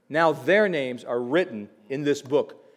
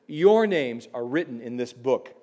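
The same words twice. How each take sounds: First: "their" leaned on, set against "your"; stress on their. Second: "Your" lifted and pressed, turned to the listeners; stress on your. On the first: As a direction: hit "their" to mark the past believers. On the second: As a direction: point "Your" straight at the congregation. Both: Acted. Contrasting their and your names.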